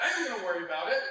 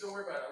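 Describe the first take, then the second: First: Louder, emphatic "I am gonna worry about it"; insistent retort. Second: Said in the usual way. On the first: Retold or imitated. Actor retelling his reply to his co-star, insistent retort. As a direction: punch "I am" in a comic mock protest. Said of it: "I'm like". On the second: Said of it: "he came over and he goes".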